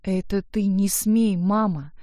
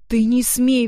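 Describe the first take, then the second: First: Slow, held-back retort; measured, indignant comeback; restrained defiance. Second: Louder, higher outburst; indignant, raised-voice retort; defiant exclamation. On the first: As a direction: warn her slowly and deliberately. Daughter's retort in quarrel. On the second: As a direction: throw the warning back as a cry. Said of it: "воскликнула она". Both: A narrator's reading.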